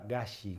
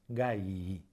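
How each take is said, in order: First: The word ends with a single I sound. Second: The word ends with two separate I sounds. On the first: The speaker calls it wrong. "nunca galli" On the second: The speaker calls it right. "como en el caso de frigilus gallii"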